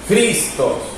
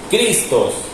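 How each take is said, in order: First: It begins with a harsh, throaty j-like sound. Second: It begins with a hard k sound. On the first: "Vamos a hacer esta J así" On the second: "Si la leo como una C, diría Cristos"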